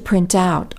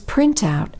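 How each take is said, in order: First: The stress is on the second part. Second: The stress is on the first part. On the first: It is a verb. "The stress falls on the second part of a phrasal verb" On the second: It is a noun. "stress usually falls on the first part of a compound noun"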